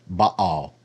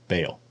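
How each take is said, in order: First: The word has a Hebrew pronunciation. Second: The word has an anglicized English pronunciation. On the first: "I know that's how you pronounce it in Hebrew" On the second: "in English, anglicized, it usually is pronounced Baal"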